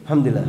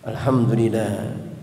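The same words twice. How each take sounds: First: The word is rushed with its sounds clipped. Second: Every sound of the word is fully pronounced. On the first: It is said without meaning. The speaker calls it wrong. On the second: The heart is present in the remembrance. The speaker calls it right.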